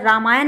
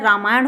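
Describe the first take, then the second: First: रामायण ending in dental n; wrong pronunciation. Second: रामायण ending in retroflex ṇ; correct pronunciation. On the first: Teacher shows the misspelling, ending in dental n. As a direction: keep the last n of रामायण on the teeth. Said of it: "रामायण नहीं होता है". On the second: Teacher gives the right word, with retroflex ṇ. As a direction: curl the tongue back on the end of रामायण. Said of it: "ना और ड़ा में difference". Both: Shown as a demonstration.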